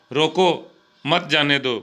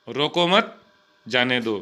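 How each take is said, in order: First: रोको alone, pause, then मत जाने दो together; pause after रोको. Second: रोको मत together, pause, then जाने दो falling; pause after मत. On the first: Teacher giving a comma example, pause straight after रोको. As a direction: break between रोको and मत. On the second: Teacher giving a comma example, pause straight after मत. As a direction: break between मत and जाने. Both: Shown as a demonstration. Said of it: "इस प्रकार से".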